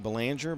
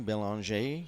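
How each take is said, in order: First: Belanger read as spelled, buh-LAN-jer; English-style Belanger ending in "jer"; anglicized pronunciation. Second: Belanger said bel-on-ZHAY, the French way; French-style Belanger ending in "ay"; French pronunciation. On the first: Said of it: "Looks like Belanger". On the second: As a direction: say Belanger as French, finishing on a lifted "ay". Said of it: "in the French pronunciation". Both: Shown as a demonstration.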